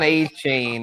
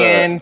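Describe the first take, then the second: First: The name ends in a single 'chain' syllable. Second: The name ends in separate 'tee-en' syllables. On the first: This is the old way of saying the name. The speaker calls it wrong. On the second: This is the new way of saying the name. The speaker calls it right. "The new pronunciation"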